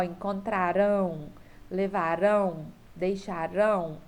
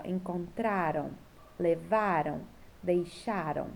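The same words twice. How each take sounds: First: "encontrarão, levarão, deixarão" each with the final "rão" hit hard; last-syllable stress. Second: "Encontraram, levaram, deixaram" each stressed on the next-to-last syllable, ending falling away; penultimate stress. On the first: Teacher showing the tonic syllable, "encontrarão, levarão, deixarão" stressed on final "rão". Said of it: "é a última sílaba". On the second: Teacher showing the tonic syllable, "Encontraram, levaram, deixaram" stressed on the penultimate. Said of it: "é a penúltima". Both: Shown as a demonstration.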